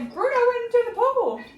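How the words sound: It is called out loudly with excitement. Something alarming or surprising has happened. "that's something we want to shout"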